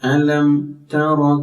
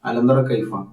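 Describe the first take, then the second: First: The m sound is articulated clearly and separately. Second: The m sound blends into the following t. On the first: The speaker calls it right. "അങ്ങനെ നല്ല സ്ഫുടത ഉണ്ടാകാൻ പ്രത്യേകം ശ്രദ്ധിക്കും" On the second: The speaker calls it wrong. "അലന്തറ കൈഫ എന്ന് പറഞ്ഞു പോകരുത്"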